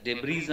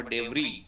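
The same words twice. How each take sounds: First: "ডেব্রিজ" said deb-reez, with a final z; sounded S in debris. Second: "ডেব্রি" said deb-ree, open ending; silent S in debris. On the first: Teacher shows how we say debris, final S sounded. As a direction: end "ডেব্রিজ" on a buzzing z. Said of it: "ডেব্রিজ আমরা বলি". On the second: Teacher corrects debris, final S silent. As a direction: end "ডেব্রি" on ee, no z. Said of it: "কিন্তু উচ্চারণ হবে ডেব্রি". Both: Shown as a demonstration.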